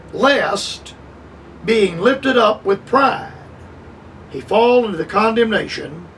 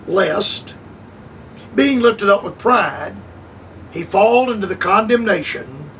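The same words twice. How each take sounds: The two takes are said the same way.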